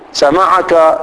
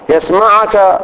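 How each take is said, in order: First: سمعك said as sami'aka with a clear final a; سمعك ending on a full "ka"; masculine ending. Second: يسمعك said as yasma'uka with a clear final a; يسمعك ending on a full "ka"; masculine ending. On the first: Teacher reading سمعك with the masculine ka ending. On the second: Teacher reading يسمعك with the masculine ka ending. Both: Shown as a demonstration. Teacher lists pronoun forms.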